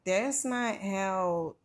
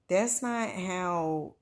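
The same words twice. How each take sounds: The two takes are said the same way.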